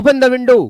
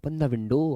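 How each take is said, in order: First: It sounds stern and authoritative, like a command. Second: It sounds friendly and caring, like advice. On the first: Someone in authority is commanding it. "फिर ये command में चला जाएगा" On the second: Doing it would be good for the listener. "Advice, अरे भाई window खोल ले"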